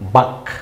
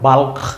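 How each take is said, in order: First: The L sound is left out. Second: The L sound is clearly pronounced. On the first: The speaker calls it right. "কথা কিন্তু হচ্ছে বাক" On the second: The speaker calls it wrong. "মনে হয় বাল্ক, কিন্তু না, বাল্ক না"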